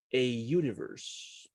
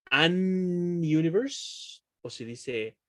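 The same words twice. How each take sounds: First: A universe said slowly as ejuniverse; right form. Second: An universe said slowly and drawn out; tempting wrong form. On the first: Teacher offering the class the right choice. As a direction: say a universe with a y sound. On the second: Teacher offering the class the wrong choice slowly. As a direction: stretch an universe as the suspect option. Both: Shown as a demonstration. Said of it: "¿Cómo se dice un universo?".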